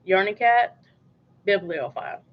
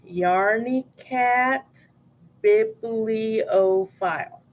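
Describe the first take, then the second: First: The name is said at normal speed. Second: The name is said slowly. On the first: "That's how you say it" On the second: "if you want me to say slower"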